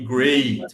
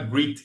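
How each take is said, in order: First: The vowel does not sound like 'greet'. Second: The vowel sounds like the one in 'greet'. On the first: The speaker calls it right. "on dit great" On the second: The speaker calls it wrong. "on ne dit pas great"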